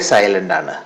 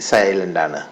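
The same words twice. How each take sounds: Both takes have the same delivery.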